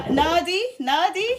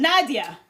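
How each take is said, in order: First: NADI without a final a, higher and rising; unsure, questioning Nadi; tentative name attempt. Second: NADIA said with a full -ia ending; tentative name attempt. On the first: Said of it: "I think it's Na". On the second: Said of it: "I can't pronounce your name". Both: Real, not acted.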